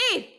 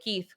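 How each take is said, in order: First: The name is said loudly. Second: The name is said quietly.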